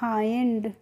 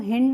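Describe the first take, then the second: First: The vowel is an 'eye' sound. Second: The vowel is a short 'ih' sound. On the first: The speaker calls it right. "क्या पढ़ते हैं" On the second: The speaker calls it wrong. "हिंड नहीं पढ़ते हैं"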